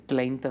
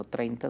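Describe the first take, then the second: First: "treinta" with L for R, as "tleinta"; mispronounced R. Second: Said in the usual way. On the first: Shown as a demonstration. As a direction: swap the R in "treinta" for an L. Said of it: "ya no decía tre". ("treinta" mal pronunciado, con L: "tleinta") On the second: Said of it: "aprendió a hablar bien".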